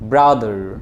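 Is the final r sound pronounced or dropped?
pronounced. The final r sound is pronounced. "আমেরিকানরা বলবে যে ব্রাদার"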